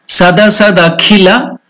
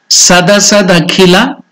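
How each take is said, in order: The two takes are said the same way.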